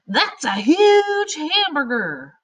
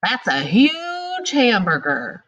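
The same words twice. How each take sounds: First: High, slow, loud amazed yell; yelling exclamation. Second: Excited exclamation. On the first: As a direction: shout it like you can't believe the size. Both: Shown as a demonstration. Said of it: "That means you're yelling".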